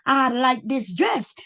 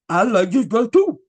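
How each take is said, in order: First: It is said in a normal voice. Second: It is said in a deep voice.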